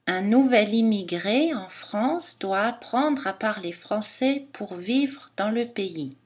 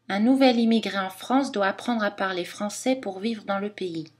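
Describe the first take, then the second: First: It is spoken slowly with more phrase breaks. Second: It is spoken at a normal, natural speed. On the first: "Si on parle plus lentement, on a un débit lent" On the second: "à vitesse normale, à débit normal"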